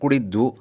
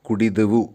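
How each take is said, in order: First: The word is shortened, with a middle vowel dropped. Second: The word is said in full with every syllable. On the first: "പെട്ടെന്ന് കുടിദ്വു" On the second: "കുടിദെവു എന്നുള്ളത്"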